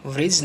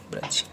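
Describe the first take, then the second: First: व्रिज with V and a short I; wrong "vrij". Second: ब्रज with an A vowel after BR; correct "braj". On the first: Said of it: "व्रिज नहीं". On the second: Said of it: "कौन सा?". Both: Shown as a demonstration.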